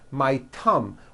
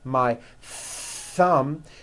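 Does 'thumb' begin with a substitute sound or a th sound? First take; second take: substitute; th sound. First: Thumb begins with a substitute sound, not th. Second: Thumb begins with a true th sound. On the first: The speaker calls it wrong. "you just substitute another sound, like a T or an S" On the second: The speaker calls it right. "notice how my tongue is coming out"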